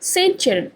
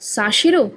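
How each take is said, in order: First: It is said as Saint Cheron, English style. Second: It is said as Sa-shero, French style. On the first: The speaker calls it wrong. "এটা England নয়" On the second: The speaker calls it right. "সেন্ট ফরাসিতে হয় সা, আর সি এইচ এর উচ্চারণ স"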